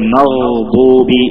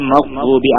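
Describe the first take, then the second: First: The word is said slowly, holding the middle sound. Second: The word is said quickly without holding the sound. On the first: The speaker calls it right. "മഗ്ദൂബി എന്ന് പറയണമെന്ന്" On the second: The speaker calls it wrong. "പെട്ടെന്ന് മഗ്ദൂബി ആവരുത്"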